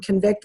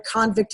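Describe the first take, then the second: First: Con-VICT, verb "convict" with stress at the end; second-syllable stress. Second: CON-vict, noun "convict" with stress up front; first-syllable stress. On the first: Clinician showing the stress difference, "convict" stressed on VICT. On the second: Clinician showing the stress difference, "convict" stressed on CON. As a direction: hit the "con" of "convict", full vowel. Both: Shown as a demonstration. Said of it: "the stress of the syllable".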